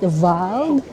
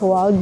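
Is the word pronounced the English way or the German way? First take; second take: German; English. First: The word is said the German way. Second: The word is read the English way. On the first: The speaker calls it right. "but Wald, that means forest" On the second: The speaker calls it wrong. "hindi siya pronounced as Wald"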